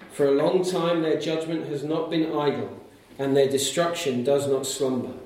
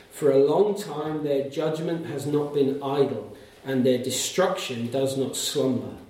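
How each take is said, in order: No difference in how they are said.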